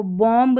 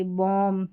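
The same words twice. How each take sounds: First: बॉम्ब with the final b wrongly sounded; mispronounced बॉम्ब. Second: बॉम्ब said as "bom", ending on m; silent b. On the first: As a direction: voice the b at the end of बॉम्ब. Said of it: "इसको बॉम्ब नहीं पढ़ते". (बॉम्ब के आख़िर में ब बोलकर ग़लत उच्चारण) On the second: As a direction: drop the b at the end of बॉम्ब. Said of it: "नहीं पढ़ते". (बॉम्ब को 'बॉम' बोलें, ब silent) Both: Shown as a demonstration.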